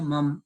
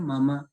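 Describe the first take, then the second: First: The word ends on a consonant sound. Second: The word ends on a vowel sound. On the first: The speaker calls it wrong. "जब बहुत से लोग बोलते हैं मम" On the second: The speaker calls it right. "दोनों माँ के अंत में आ का ध्वनि आ की आनी चाहिए"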